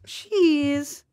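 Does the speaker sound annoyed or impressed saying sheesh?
impressed. It is said in an impressed, positive tone. Something is great. "That means it's great"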